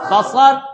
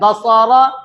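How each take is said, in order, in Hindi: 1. शब्द का अंत सादे व्यंजन पर होता है। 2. शब्द का अंत अंतिम स्वर पर होता है।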